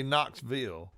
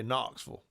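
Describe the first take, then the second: First: "Knoxville" with a clear v and a full "ville" ending; wrong pronunciation. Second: "Knoxville" with an f sound and a swallowed ending, Knocks-full; local pronunciation. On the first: Teaching fans the wrong way: "Knoxville" said as Knocks-ville. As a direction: say "Knoxville" the outsider way, Knocks-VILL. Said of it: "you gotta say it Knoxville. You don't say". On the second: Teaching fans the local way: "Knoxville" said as Knocks-fuhl. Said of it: "You say". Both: Shown as a demonstration.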